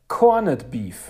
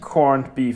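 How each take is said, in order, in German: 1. Es wird mit deutschem Akzent ausgesprochen. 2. Es wird mit englischem Akzent ausgesprochen. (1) "es heißt Corned Beef" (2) "Es heißt nicht"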